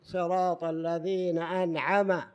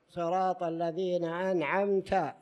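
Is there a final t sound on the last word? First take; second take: no; yes. First: The last word ends without a t sound. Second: The last word ends with a t sound. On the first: The speaker calls it wrong. "ما قال التاء" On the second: The speaker calls it right. "هي أنعمت"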